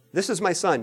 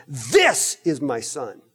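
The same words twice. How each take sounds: First: Said in the usual way. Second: This is my son slow, with This stressed; weighty and slow. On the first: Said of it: "the Father doesn't just say". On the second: Shown as a demonstration. The Father declaring his son, slow and solemn. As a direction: lean on This, slowly and solemnly. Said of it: "No, he's saying".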